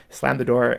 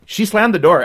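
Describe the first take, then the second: First: Said in the usual way. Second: SLAMMED hit hard, higher and louder; emphatic retelling. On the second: Retold or imitated. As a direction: punch "slammed" with full force.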